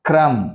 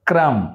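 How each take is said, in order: No difference in how they are said.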